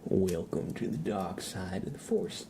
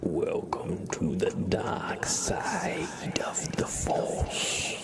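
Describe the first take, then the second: First: It is said with a Southern American drawl. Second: It is said in a raspy, menacing villain voice. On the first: The speaker calls it wrong. "I feel like I kind of just had like a southern accent" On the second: The speaker calls it right. "I feel like I kind of got it in the beginning, or in the end"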